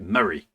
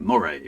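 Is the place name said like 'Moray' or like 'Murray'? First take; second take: Murray; Moray. First: The name is said like 'Murray'. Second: The name is said like 'Moray'. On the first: The speaker calls it right. "They pronounce it Murray" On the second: The speaker calls it wrong. "I was pronouncing it Moray because that sounds kind of cool"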